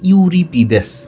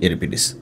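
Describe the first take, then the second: First: The name begins with a 'yoo' sound. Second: The name begins with an 'eh' sound. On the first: It follows the spelling letter by letter. The speaker calls it wrong. "উচ্চারণ যদি লেখার মতো করে করি ইউরিপিদেস এরকম" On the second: It is the accepted pronunciation. The speaker calls it right. "মূলত সঠিক উচ্চারণ হচ্ছে এরিপিডিস"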